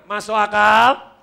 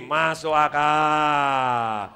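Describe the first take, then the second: First: Drawn-out call with a rising end; loud check question. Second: Chanted, very slow, stretched final vowel, sinking away; chanted, stretch the last syllable right out; long drawn-out chant. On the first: Real, not acted. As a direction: throw it out loudly to the crowd. Calls for the audience's response. (bertanya lantang, nada naik di akhir) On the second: Shown as a demonstration. Leads crowd with hand on forehead. (chanted, diucapkan panjang mengalun, nada turun)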